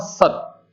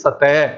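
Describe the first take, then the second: First: It ends sharply on the t, no vowel. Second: It ends with a short vowel after t. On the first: "ज़रा-सा भी स्वर नहीं सुनाई देता" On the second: "इसका उच्चारण होना चाहिए सतै, वो ए पे अंत होना चाहिए"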